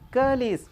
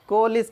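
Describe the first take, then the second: First: The first vowel is a short 'uh' sound. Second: The first vowel is a rounded 'o' sound. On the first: The speaker calls it right. "सही उच्चारण के लिए कलिस" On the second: The speaker calls it wrong. "सभी कहते हैं कोलिस कहते हैं ... ऐसा नहीं है"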